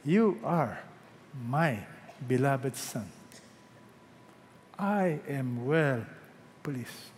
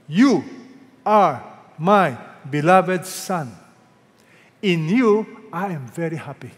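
First: Low, soft, slow blessing; hushed, lingering words of approval; God's tender approval. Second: Loud, slow divine proclamation; God's voice, big and stately; voice from heaven. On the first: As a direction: say it softly to a beloved child, with pauses. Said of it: "you know what else he will say". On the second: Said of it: "a voice came out of heaven". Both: Acted.

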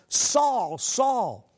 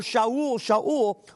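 First: Said in the usual way. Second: "Shaul" said shah-OOL, Hebrew style, twice; "Shaul" as two syllables, sha-OOL; Hebrew pronunciation. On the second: Shown as a demonstration.

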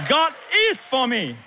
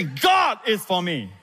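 First: IS held high and forceful, falling on "for me"; stress on IS. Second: GOD held long and high, then dropping; stress on GOD. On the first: Pastor asking congregation for one more time, stress on IS. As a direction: ring out the word is. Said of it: "then is". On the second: Pastor guiding slow congregation to repeat, stress on GOD. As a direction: call it out, leaning on the word God. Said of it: "First of all, you emphasize God". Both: Shown as a demonstration.

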